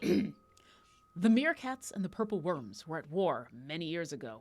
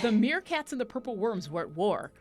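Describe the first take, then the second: First: It is read in a grave, serious voice. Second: It is read in a casual, ordinary voice.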